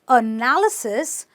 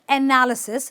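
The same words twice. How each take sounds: First: The first vowel is a relaxed 'uh' sound. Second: The first vowel is an open 'eh' sound. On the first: The speaker calls it right. "it is a" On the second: The speaker calls it wrong. "It's not analysis"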